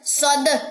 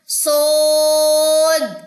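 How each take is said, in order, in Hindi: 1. d से पहले स्वर छोटा और झट से कटा हुआ है। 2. d से पहले स्वर लंबा खिंचा हुआ है। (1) "अक्सर लोग इसे ऐसे पढ़ते हैं" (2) "स्वाद अलिफ और दाल लास्ट पे महसूस होगा"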